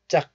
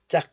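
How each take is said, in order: First: The final G sound is cut off unreleased. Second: The same.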